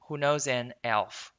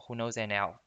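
First: The word elf is said clearly, not linked. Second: The words an and elf run together. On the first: "它elf 读得很清楚啊" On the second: "它没有这样子连在一起啊"

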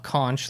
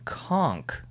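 First: The word ends with a 'ch' sound. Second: The word ends with a 'k' sound. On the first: The speaker calls it wrong. "Not conch like they say on SpongeBob" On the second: The speaker calls it right. "let's move on to the next one"

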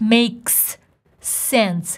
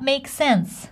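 First: Two separate s sounds are pronounced between words. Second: A single joined s sound links the words. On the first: The speaker calls it wrong. "I don't say it makes sense, because makes ends with S. Sense starts with S" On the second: The speaker calls it right. "we put them together and we pronounce one S"

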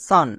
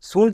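First: The vowel is an open 'ah' sound. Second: The vowel is a rounded 'oo' sound. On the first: The speaker calls it right. "এর উচ্চারণ হয় সান" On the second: The speaker calls it wrong. "শুন কিন্তু না"

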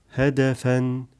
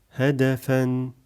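The two takes are said the same way.

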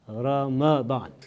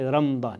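First: The m is followed by a short 'a' vowel. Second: The m has no short 'a' vowel after it. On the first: The speaker calls it right. "The correct pronunciation of this month is Ramadan. ... It's with the fatha of the meme" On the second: The speaker calls it wrong. "Some people say Ramadan. It's not"

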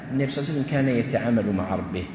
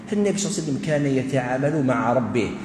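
The two takes are said the same way.

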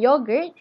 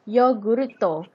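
First: It is said in a standard English accent. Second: It is said in a Japanese English accent.

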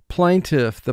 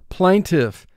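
No difference in how they are said.

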